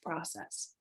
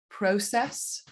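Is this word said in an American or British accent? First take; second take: American; British. First: American pronunciation, first vowel without the 'oh' glide. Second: British pronunciation, first vowel an 'oh' glide. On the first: "in the States that changes to process" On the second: "in the U K with an O diphthong"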